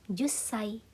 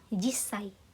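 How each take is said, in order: First: The first vowel is u. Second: The first vowel is i. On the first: "Jussai atau jissai. Bisa dua-duanya" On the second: "Bisa dua-duanya"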